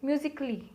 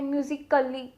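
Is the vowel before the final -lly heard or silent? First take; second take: silent; heard. First: The vowel before -lly is silent. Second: The vowel before -lly is clearly pronounced. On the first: The speaker calls it right. "ये जो ए है वो इसमें थोड़ा silent होता है, this is म्यूजिकली" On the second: The speaker calls it wrong. "ऐसे कई लोग मैंने सुना है बोलते हैं म्यूजिकली, नो"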